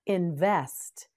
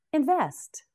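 First: Said in the usual way. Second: Invest said higher, in-VEST with a strong falling tune; emphatic model word. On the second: Shown as a demonstration. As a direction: lift the pitch on Invest and drop it firmly. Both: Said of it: "Now you say it with me".

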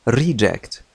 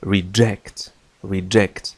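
First: "reject" with stress on the first syllable RE; noun stress. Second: "reject" with stress on ject; verb stress. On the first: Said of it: "عندما تكون اسمًا فتنطق". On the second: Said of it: "تكون هذه الكلمة فعلًا". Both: Shown as a demonstration.

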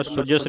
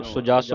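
First: ਸੁਜਸ with a short "uh" after j, "su-jus"; wrong short vowel. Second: ਸੁਜਸ with a long "aa" after j, "su-jaas"; long second vowel. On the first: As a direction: clip the second vowel of ਸੁਜਸ. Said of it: "ਸੁਜਸ ਨਹੀਂ ਪੜ੍ਹਨਾ". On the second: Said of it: "ਸੁਜਸ ਪੜ੍ਹਨਾ". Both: Shown as a demonstration.

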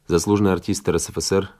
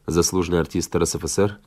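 The two takes are said the same way.

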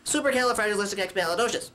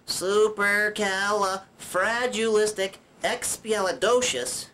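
First: Fast, run-together long word; rattled off. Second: Very slow, drawn-out long word; syllable by syllable. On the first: Puppet shows viewers a long word, rattled off. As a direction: race through the whole word in one go. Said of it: "Or you could just say". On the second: Puppet shows viewers each mouth opening, syllable by syllable. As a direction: stretch out every syllable. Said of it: "You could do this". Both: Shown as a demonstration.

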